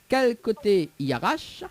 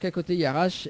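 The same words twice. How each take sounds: First: The phrase is spoken at a slow pace. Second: The phrase is spoken at a quick pace.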